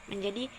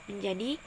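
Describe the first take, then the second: The two takes are said the same way.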